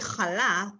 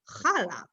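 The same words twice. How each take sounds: First: It is said with an Israeli Hebrew pronunciation. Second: It is said with an American pronunciation. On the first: "we say chala" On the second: "a lot of Americans say chala"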